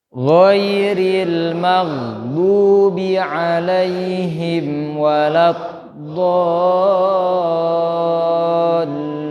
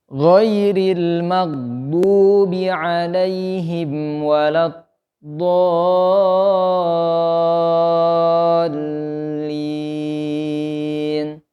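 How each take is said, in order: The two takes are said the same way.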